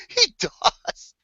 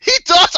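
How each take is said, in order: First: Said in the usual way. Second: High, loud excited yell; hyped shout. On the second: Real, not acted. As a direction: shout it out, thrilled. Excited shout at other host.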